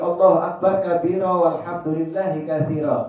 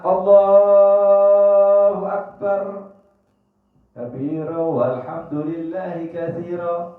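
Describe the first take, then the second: First: Allahu Akbar runs straight on without a pause. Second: There is a short pause after Allahu Akbar. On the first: The speaker calls it wrong. "ini salah" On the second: The speaker calls it right. "Diam sejenak"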